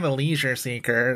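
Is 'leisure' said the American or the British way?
American. Leisure is said with a plain Midwestern American vowel. The film sounds much less fancy. "Now it's just like"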